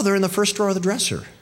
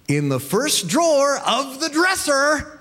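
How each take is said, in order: First: It is said in a plain, friendly tone. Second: It is said in a scornful, condescending tone. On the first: The answer is simply given. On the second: The listener is considered stupid.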